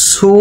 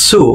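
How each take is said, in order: First: সু with only an s, no t before it; সু starting on a pure hiss of s, not ts; plain su sound. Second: সু said as "tsu", with a t before the s; touch the tongue as for ta, then release সু as tsu; সু demonstrated with a ts onset; tsu sound. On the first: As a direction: show the mistaken সু as a simple "su". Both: Shown as a demonstration. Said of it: "এটা কিন্তু সু না".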